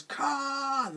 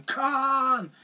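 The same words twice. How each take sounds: First: High, drawn-out mock cry without extra volume; a lightly voiced Spock crying out the name; Spock's Khan cry. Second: High mock cry of Khan; a hammed-up echo of Kirk's famous shout; Kirk's Khan yell. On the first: Spock crying out the enemy's name in the remake. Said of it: "instead it's Spock who goes". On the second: Kirk shouting his enemy's name in the original. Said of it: "Captain Kirk going".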